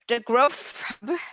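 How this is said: It is said in an Asian accent.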